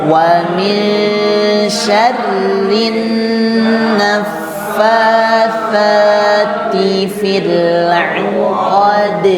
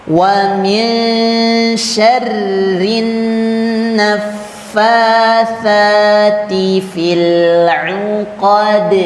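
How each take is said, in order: No difference in how they are said.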